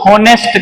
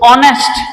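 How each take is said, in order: First: The word starts with an h sound. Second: The word starts with a vowel, no h. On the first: The speaker calls it wrong. "ખોટું બોલતા હોય છે હોનેસ્ટ કરીને" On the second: The speaker calls it right. "આની અંદર એચ છે એ silent છે"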